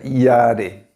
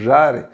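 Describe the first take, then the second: First: The word starts with a y sound. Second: The word starts with a zh sound. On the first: The speaker calls it right. "aí fica iare" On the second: The speaker calls it wrong. "no português deveria ser jare"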